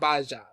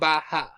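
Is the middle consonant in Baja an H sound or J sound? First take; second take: J sound; H sound. First: The middle consonant is an English J sound. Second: The middle consonant is an H sound. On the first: The speaker calls it wrong. "not Baja" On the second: The speaker calls it right. "you're supposed to have the H sound instead"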